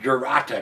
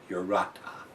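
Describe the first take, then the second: First: The name begins with a J sound. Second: The name begins with a vowel sound. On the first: This follows how the name is spelled. "I'm going to call it Jurata because that's how it's fucking written" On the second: This follows the pronunciation given on the label. "according to the bottle, it is pronounced Urata"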